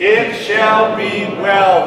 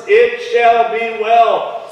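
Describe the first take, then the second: First: Slow, half-sung congregational chant; chanted with the church. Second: Each word laid down slowly; slow, deliberate. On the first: Preacher leading the congregation in a slow half-sung chant. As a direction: lead the room in a slow chant. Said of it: "Say it with me". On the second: Preacher slowly stressing the four words. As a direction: draw out every word of the promise. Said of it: "don't forget this, these four words". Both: Shown as a demonstration.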